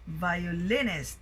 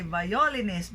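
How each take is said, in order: First: "violinist" with stress on the third syllable, vioLINist; correctly stressed violinist. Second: "violinist" with stress on the second syllable, viOlinist; common misstressed violinist. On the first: Teacher correcting a common mistake, vioLINist. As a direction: hit LIN in violinist. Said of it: "but it should be violinist". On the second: Teacher mimicking a common mistake, viOlinist. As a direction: hit O in violinist. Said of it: "we often hear people say violinist". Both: Shown as a demonstration.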